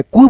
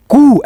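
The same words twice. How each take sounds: First: Said in the usual way. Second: कु said with its vowel drawn out long; stretched vowel. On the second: Shown as a demonstration. Teacher showing students the long ऊ by stretching कु. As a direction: hold the u in कु longer. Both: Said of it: "थोड़ा सा उच्चारण खींचेंगे हम".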